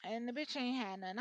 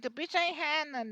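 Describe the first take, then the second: First: Said in the usual way. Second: Higher and louder, scornful; mock blunt complaint. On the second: Reader voicing client complaining about broke woman, scornful. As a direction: toss it off with disdain.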